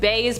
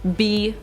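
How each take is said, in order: First: The letter is said with an 'ay' vowel. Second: The letter is said with an 'ee' vowel. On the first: "I like to call them point bays" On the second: "B is also an acceptable pronunciation"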